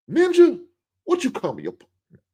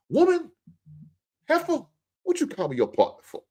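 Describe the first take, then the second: First: High loud yelp, then drops back; mock offended yell. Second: Mock outraged wife. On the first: Wife snapping back at her husband, high mock yelp. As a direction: squeal it like someone insulted. Second mock outraged reply. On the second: Wife yelling at her husband for calling her partner, high mock outrage. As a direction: shriek it like a wife insulted.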